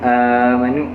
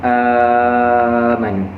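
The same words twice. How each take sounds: First: The first vowel is held for four beats. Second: The first vowel is held for six beats.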